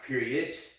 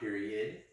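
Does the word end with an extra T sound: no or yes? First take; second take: yes; no. First: The word ends with an added T sound. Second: The word ends without an added T sound. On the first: The speaker calls it right. "period with a T. So that's pronounced period" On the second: The speaker calls it wrong. "not period"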